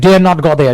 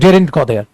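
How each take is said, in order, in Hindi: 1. 'dare not' को दो पूरे शब्दों की तरह बोला जाता है। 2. 'dare not' को एक शब्द में छोटा कर दिया जाता है, daren't। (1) "ऐसे यूज करते हैं" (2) "डेरेंट भी बोल सकते हैं शॉर्ट में"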